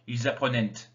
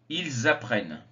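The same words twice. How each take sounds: First: The final -ent ending is pronounced aloud. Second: The final -ent ending is silent. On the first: The speaker calls it wrong. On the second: The speaker calls it right.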